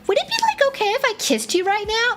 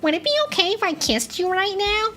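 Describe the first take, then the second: First: It drifts into a Valley Girl voice. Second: It is said in a nerdy voice.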